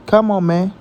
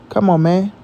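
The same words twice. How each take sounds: The two takes are said the same way.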